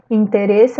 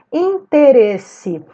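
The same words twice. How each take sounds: First: Said in the usual way. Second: "Interesse" drawn out slowly, louder on RE; stressed syllable. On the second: Shown as a demonstration. Teacher showing pupils the tonic syllable, slow stress on RE in "Interesse". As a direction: stretch and punch the RE in "Interesse". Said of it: "a sílaba tônica é ereis".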